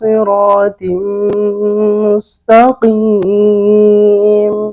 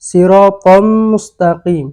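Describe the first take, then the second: First: The syllable before mustaqim ends in 'tim'. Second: The syllable before mustaqim ends in 'tam'. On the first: The speaker calls it right. "যেখানে আল্লাহ রাব্বুল আলামিন বলছেন" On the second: The speaker calls it wrong. "আর তুই পড়ছত"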